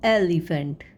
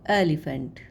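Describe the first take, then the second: First: "एलिफेंट" said firmly, louder, falling at the end; teacher models "एलिफेंट" loud and crisp; emphatic model word. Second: "एलिफेंट" repeated lower and softer, trailing down; teacher quietly repeats "एलिफेंट" for the class. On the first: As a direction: announce "एलिफेंट" clearly for pupils to copy. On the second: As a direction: echo "एलिफेंट" gently after the first take. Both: Shown as a demonstration. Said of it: "ठीक है".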